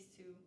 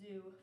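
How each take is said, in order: First: It starts with a voiceless hissing s sound. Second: It starts with a voiced buzzing z sound. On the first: "replacement of S with Z" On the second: "in words like zoo"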